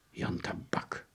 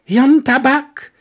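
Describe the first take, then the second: First: Hushed whisper of the name. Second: High, loud and slow, baffled; soldier voice. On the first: Detective murmuring the name he overheard. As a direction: breathe the name. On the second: Soldier baffled the detective doesn't know, slow and high. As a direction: stretch it out high, dumbfounded. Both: Acted.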